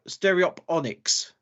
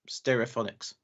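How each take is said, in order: First: The sound after 'stereo' is a p. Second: The sound after 'stereo' is an f. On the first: The speaker calls it wrong. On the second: The speaker calls it right.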